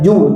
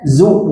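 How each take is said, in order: First: The syllable begins with a j sound. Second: The syllable begins with a buzzing z sound. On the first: The speaker calls it wrong. "bukan ju" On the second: The speaker calls it right. "Zu bukan ju"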